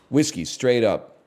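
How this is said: It sounds like a smooth, rehearsed realtor.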